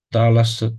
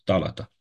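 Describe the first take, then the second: First: The middle consonant is an s sound. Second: The middle consonant is a t sound. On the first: This is the form used in other dialects. "Alte dialecte, s" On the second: This is the Attic dialect form. "în atic, t"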